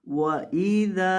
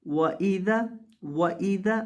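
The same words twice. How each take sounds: First: वइदा with the dal drawn long; correct wa-idha. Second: वइदा clipped, dal not lengthened; common mistake. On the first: Teacher models वइदा slowly with a long dal. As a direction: stretch the द in वइदा before the alif. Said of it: "इसे पढ़ेंगे वइदा". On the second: Teacher imitates the wrong short वइदा. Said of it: "अक्सर लोग इसको गलत पढ़ देते हैं". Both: Shown as a demonstration.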